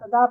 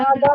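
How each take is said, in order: First: The first vowel is kept short. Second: The first vowel is drawn out long. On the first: The speaker calls it right. "ता पे सिंपल जबर है। तदा तदा बोलो" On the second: The speaker calls it wrong. "तादा नहीं नहीं नहीं नहीं, ... ता को लंबा नहीं करना।"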